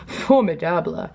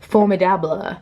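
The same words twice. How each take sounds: First: It is said with an English accent. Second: It is said with a French accent. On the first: The speaker calls it right. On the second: The speaker calls it wrong.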